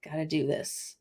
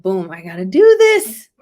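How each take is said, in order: First: Soft, low repeat to yourself; quiet. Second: Loud burst of excitement; excited. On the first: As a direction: murmur it under your breath. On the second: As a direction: punch it out, fired up. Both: Retold or imitated. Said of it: "And I was like".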